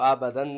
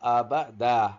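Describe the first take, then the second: First: The word ends with an n sound. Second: The word ends with an open vowel. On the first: The speaker calls it wrong. "تو اس کو آبدن نہیں پڑھیں گے" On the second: The speaker calls it right. "رکنا ہے تو اس کو پڑھنا پڑے گا آبدا"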